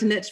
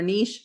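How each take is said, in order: First: The word is said in a Southern way. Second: The word is said in a standard way.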